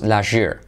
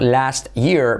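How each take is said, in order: First: The words run together with changed sounds. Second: Each word is pronounced separately and fully.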